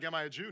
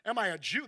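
First: It is read flatly, without attitude. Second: It is said with a scornful attitude.

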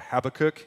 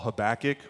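First: The name is said in a British way. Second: The name is said in a non-British way.

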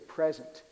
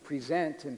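First: The stress is on the first syllable. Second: The stress is on the second syllable. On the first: A gift, being here, or this moment. "say present" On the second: To offer or show oneself. "we put the accent on the other syllable and it becomes present"

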